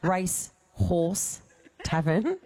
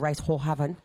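First: It is said slowly and clearly. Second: It is said fast and slurred together.

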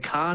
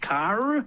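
First: The R after the vowel is silent. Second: The R after the vowel is pronounced.

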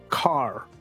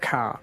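First: It is said with an American accent and a strong R. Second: It is said with an Australian or New Zealand accent.

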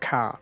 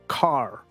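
First: It has an Australian or New Zealand accent, no R. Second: It has an American accent with a strong R.

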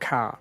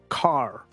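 First: It is said with no R sound, Aussie style. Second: It is said with a strong American R.

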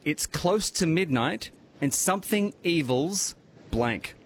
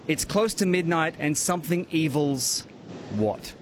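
First: It is read more slowly. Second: It is read at normal speed.

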